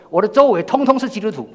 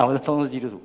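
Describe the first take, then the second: First: "周围通通" punched higher and louder, falling at the end; emphatic stress. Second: Said in the usual way. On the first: Real, not acted. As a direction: drive home "通通是基督徒" with force.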